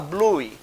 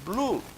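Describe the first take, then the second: First: The word ends with an added 'ee' vowel. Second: The word ends cleanly with no added vowel. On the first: The speaker calls it wrong. "a gente não vai falar bluey. Isso não tem o mínimo sentido" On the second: The speaker calls it right. "a gente pega palavras bem fáceis como blue"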